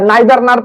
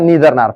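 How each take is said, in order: First: The first vowel of neither sounds like 'eye'. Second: The first vowel of neither sounds like 'ee'. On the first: "या नाइदर नार पढ़िए" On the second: "या नीदर नार पढ़िए"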